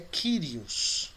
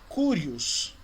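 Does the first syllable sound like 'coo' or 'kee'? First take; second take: kee; coo. First: The first syllable sounds like 'kee'. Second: The first syllable sounds like 'coo'. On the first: The speaker calls it right. "mas a pronúncia é Kyrios" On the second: The speaker calls it wrong. "Você vai ouvir algumas pessoas pronunciando como curios"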